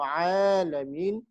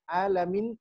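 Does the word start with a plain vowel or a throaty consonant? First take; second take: throaty consonant; plain vowel. First: The word starts with a tight mid-throat consonant. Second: The word starts with a plain vowel onset. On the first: It refers to all the worlds. The speaker calls it right. "Kalau alamin, Tuhan semesta" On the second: It refers to those who are sick. The speaker calls it wrong. "alamun itu artinya sakit"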